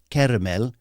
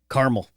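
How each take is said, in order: First: It is said with a lilting British-Irish accent. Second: It is said with a flat Southern Californian accent.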